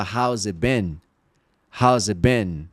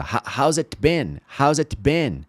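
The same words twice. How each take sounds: First: "it" said as a short "eh" running into "been"; easy connected "it been" without the T; dropped T in IT. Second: Stumble, then sound the T in "it"; full hard T in "it" before "been"; tongue-tripping, careful "it been"; laboured T in IT. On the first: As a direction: link it smoothly, no T in "it". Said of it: "Não é mais fácil só falar". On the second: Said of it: "correndo contra a sua língua". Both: Shown as a demonstration.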